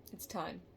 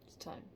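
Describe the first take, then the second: First: Said in the usual way. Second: "It's time" repeated much softer, fading; softer echo. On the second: Real, not acted. Reader letting the warning fade into a hush. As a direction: let "It's time" sink to near silence.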